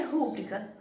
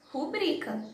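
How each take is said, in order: First: RÚBRICA com a primeira sílaba forte; tônica no RÚ. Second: RuBRIca com a segunda sílaba forte; tônica no BRI. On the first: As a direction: diga rúbrica acentuando o RÚ. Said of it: "não tem acento no ru". (rúbrica como proparoxítona) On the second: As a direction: diga rubrica acentuando o BRI. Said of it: "tem que ser rubrica". (rubrica como paroxítona) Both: Shown as a demonstration.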